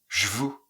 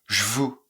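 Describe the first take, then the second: The two takes are said the same way.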